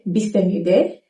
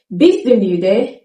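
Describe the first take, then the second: First: Du in bist du müde slurred to schwa; reduced form. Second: Bist du müde slow, each word clear; slow careful Bist du müde; full form. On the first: Teacher shows the spoken question. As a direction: quieter casual bist du müde. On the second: Teacher gives the full question. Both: Shown as a demonstration.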